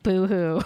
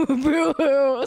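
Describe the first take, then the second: First: Said in the usual way. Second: High, loud mock sobbing boo hoo; hammed-up crying boo hoo; fake crying. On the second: Mock sob after teasing.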